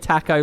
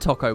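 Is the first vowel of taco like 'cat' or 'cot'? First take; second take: cat; cot. First: The first vowel sounds like the one in 'clock'. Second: The first vowel sounds like the one in 'top'. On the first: This is the local British way. "We say taco like clocko" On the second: This is the American way. "I just said it there and it sounded so weird"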